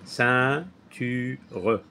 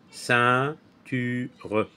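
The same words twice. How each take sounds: The two takes are said the same way.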